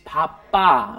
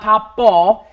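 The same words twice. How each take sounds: First: The final vowel is an 'ah' sound. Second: The final vowel is not an 'ah' sound. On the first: The speaker calls it right. "it's 바빠" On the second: The speaker calls it wrong. "It's not 바빠"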